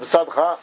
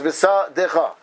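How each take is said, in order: First: No vowel is heard between d and ch. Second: A short vowel is heard between d and ch. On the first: The speaker calls it wrong. "So everybody reads it, bisadcha. Well done, but that's not right" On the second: The speaker calls it right. "But that's right. It's bisa decha"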